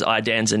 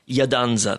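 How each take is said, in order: First: The surname is said with an anglicized pronunciation. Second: The surname is said with its Italian pronunciation. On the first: The name was adapted for English speakers. "I made it Iadanza" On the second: This is how the family name is traditionally said. "That's the Italian way of saying it"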